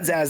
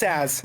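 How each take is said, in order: First: The name begins with a z sound. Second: The name begins with an s sound. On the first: The speaker calls it wrong. "not Zaz" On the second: The speaker calls it right. "it's Saz, not Zaz. The S and the Z are, are flipped"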